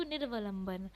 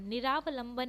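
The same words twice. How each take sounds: First: निर्वलंबन with a half r joined to va; correct form nirvalamban. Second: निरावलंबन with a long aa after r; the wrong निरावलंबन, ni-raa-va-lam-ban; wrong form niraavalamban. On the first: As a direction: say निर्वलंबन, nir-va-lam-ban, no aa. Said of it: "अपितु". (शुद्ध रूप निर्वलंबन, आधा र) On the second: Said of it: "निरावलंबन नहीं". (गलत रूप निरावलंबन, लंबा आ) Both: Shown as a demonstration.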